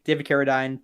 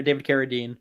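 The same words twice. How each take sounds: First: "Carradine" ending like "dine"; alternative pronunciation of Carradine. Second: "Carradine" ending like "deen"; alternative pronunciation of Carradine. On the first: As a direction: say "Carradine" to rhyme with wine. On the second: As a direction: say "Carradine" with a long ee in the last syllable. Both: Shown as a demonstration. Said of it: "tomato, tomato".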